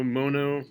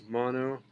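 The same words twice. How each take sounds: First: "mono" said MOH-noh, long first o; long-o pronunciation. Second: "mono" said MAH-noh, open first vowel; open-vowel pronunciation. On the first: Teacher shows class one regional way, "mono" as MOH-noh. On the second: Teacher shows class the other regional way, "mono" as MAH-noh. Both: Shown as a demonstration. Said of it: "depending on where you live".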